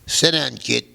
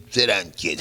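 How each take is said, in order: First: Put-on loud, higher order to sit down, kid; gruff order. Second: Said in the usual way. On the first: Mob boss to young musician, loud gruff order. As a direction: bark Sit down like a command.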